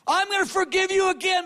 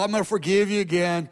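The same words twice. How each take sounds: First: The voice sounds angry and exasperated. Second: The voice sounds sad and sighing. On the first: The speaker is annoyed at repeated failure. "Like he's mad" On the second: The speaker is disappointed and pities the listener. "not mad, but he's sad"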